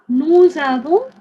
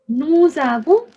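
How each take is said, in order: Both takes have the same delivery.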